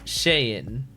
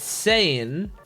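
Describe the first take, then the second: First: The name begins with an sh sound. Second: The name begins with a plain s sound. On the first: "the S names are pronounced with S H. So Shane" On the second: "It's not Shane. It's it's Sane"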